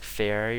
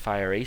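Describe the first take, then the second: First: The word begins like 'fair'. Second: The word begins like 'fire'. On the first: The speaker calls it wrong. "I was always saying fairy or something" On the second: The speaker calls it right. "apparently it's pronounced fiery"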